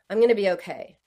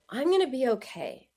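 First: The tone is harsh and not nurturing. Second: The tone is kind and nurturing. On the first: The speaker calls it wrong. "that doesn't sound very nurturing" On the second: The speaker calls it right. "But if you use a different tone"

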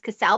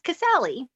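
First: The name ends without a final vowel sound. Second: The name ends with a pronounced final vowel. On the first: The speaker calls it wrong. "to me it was always Casal" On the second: The speaker calls it right. "but it's Casali"

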